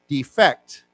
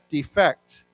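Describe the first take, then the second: First: The stress is on the second syllable. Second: The stress is on the second syllable.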